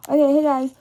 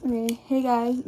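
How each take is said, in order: First: Loud. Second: Said in the usual way. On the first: Real, not acted. Restarts intro after dropping camera. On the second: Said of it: "ooh, not me dropping the camera".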